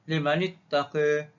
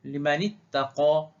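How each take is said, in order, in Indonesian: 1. Vokal akhirnya dinaikkan sebagian ke arah e. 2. Vokal akhirnya adalah a terbuka penuh. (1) "baca dengan taklil bagi warsh" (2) "dengan fathah dahulu"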